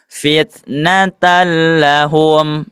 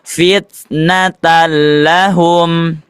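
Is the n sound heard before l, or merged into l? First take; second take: merged; merged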